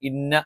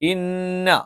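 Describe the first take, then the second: First: The doubled n is said plainly without nasal hold. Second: The doubled n is held with a nasal hum. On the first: The speaker calls it wrong. "ഇന്ന എന്ന് പറഞ്ഞാൽ പോരാ" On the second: The speaker calls it right. "മണിച്ചുച്ചരിക്കണം"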